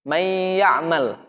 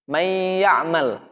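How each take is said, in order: First: The n blends into the following y sound. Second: The same.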